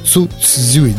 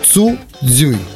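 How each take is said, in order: First: The second syllable begins with a ts-dz sound. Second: The second syllable begins with a plain dz sound. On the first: The speaker calls it right. "да, вот так. ... а цз" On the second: The speaker calls it wrong. "Нет, ... Не дзэ"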